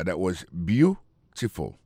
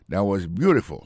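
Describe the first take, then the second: First: "beautiful" slowly broken up, stress on its first syllable. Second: Said in the usual way. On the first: Shown as a demonstration. Teacher shows where the accent falls in "beautiful", slow first-syllable stress. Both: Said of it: "l'accent tombé sur le premier syllabe là".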